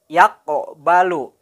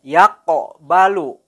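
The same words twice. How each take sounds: The two takes are said the same way.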